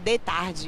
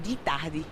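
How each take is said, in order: First: It is pronounced with a southern Brazilian accent. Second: It is pronounced with the speaker's local accent. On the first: This is how people from the South say it. "O pessoal do Sul fala" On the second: This is how the speaker's own community says it. "e a gente fala"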